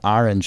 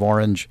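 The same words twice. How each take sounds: First: It is said with a New York accent. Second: It is said with a Californian accent. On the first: This is how it was said as a child. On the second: This is how the other children said it.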